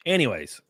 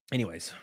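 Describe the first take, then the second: First: Said in the usual way. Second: A lower, softer Anyways; muttered aside before moving on; low mumbled anyways. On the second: Real, not acted.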